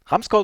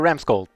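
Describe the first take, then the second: First: The name is pronounced the German way. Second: The name is pronounced the English way. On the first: "depending on if you want to pronounce it German" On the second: "or English"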